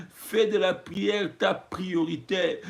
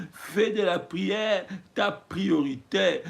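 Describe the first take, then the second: Both takes have the same delivery.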